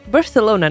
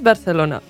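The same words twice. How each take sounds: First: It is said with a non-Spanish accent. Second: It is said with a Spanish accent.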